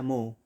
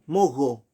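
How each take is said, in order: First: "moho" with no consonant between the o's; correct silent H. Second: "Mogo" loud, with a hard consonant between the o's. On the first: Teacher correcting the mispronunciation, "moho" with silent h. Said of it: "pero se pronuncia moho". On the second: Teacher showing a mispronunciation, "Mogo" with the h as g. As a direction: hit "Mogo" loudly, sounding the h as a g. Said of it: "Algunos pronuncian como G". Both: Shown as a demonstration.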